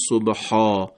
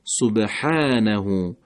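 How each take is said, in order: First: سبحا said wrongly with a thick, full long a; wrong heavy ha. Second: سبحانه very slowly, the long a light and thin. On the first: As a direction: give سبحا a dark, heavy a as the mistake. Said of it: "نمیگیم". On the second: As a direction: let the a of سبحانه lean to fatha. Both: Shown as a demonstration.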